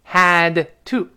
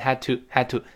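First: The d of had is fully released. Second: The d of had is not released.

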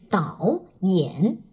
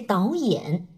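First: The first syllable dips down then rises up. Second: The first syllable rises steadily like second tone. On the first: The speaker calls it wrong. "我们不会说成是导演" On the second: The speaker calls it right. "而是导演"

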